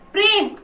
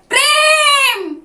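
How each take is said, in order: First: The name is called out in a soft voice. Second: The name is called out in a loud voice.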